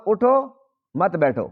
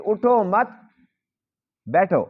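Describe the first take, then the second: First: Slow "اٹھو", a break, then "مت بیٹھو" as one; pause after اٹھو. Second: "اٹھو مت" raised, long pause, then falling "بیٹھو"; pause after مت. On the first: Teacher contrasting the other reading for students, pause after اٹھو. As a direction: set اٹھو apart, then drop into مت بیٹھو. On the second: Teacher recapping the required stop for students, pause after مت. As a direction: hold off بیٹھو until after a long break. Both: Shown as a demonstration. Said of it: "وہاں پر ٹھہرنا ضروری ہوتا ہے".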